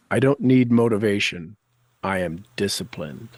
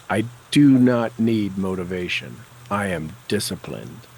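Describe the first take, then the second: First: Said in the usual way. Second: NOT in "I do not need motivation" hit loud and firm; firm, louder affirmation. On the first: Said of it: "tapping affirmations, first take". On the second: Shown as a demonstration. Coach leading tapping, repeating the affirmation louder and firmly. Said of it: "Oh, yes".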